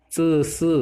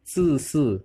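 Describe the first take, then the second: First: ZI SI with an uh-like e vowel; higher ZI SI, loose vowel; first sound. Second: ZI SI slow with tight hissed vowel; pressed sound. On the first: Teacher contrasting spellings, e-like sound. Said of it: "Z H E". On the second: Teacher contrasting spellings, tight sound. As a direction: stretch and press ZI SI. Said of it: "Ini agak ditekan ya". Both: Shown as a demonstration.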